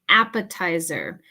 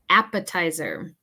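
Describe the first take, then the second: The two takes are said the same way.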